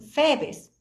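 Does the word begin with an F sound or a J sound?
F sound. The word begins with an F sound. "dicen febes"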